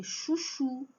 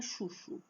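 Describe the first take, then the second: First: "chuchu" as chu-CHU, ending held; stress on last syllable. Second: "chuchu" as CHU-chu, ending weak and soft; wrong stress on first syllable. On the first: Teacher corrects the mistake, "chuchu" stressed on last CHU. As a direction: lean on the final CHU of "chuchu". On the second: Teacher shows the mistake, "chuchu" stressed on first CHU. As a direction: let the second syllable of "chuchu" drop away. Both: Shown as a demonstration. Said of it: "Não é chuchu".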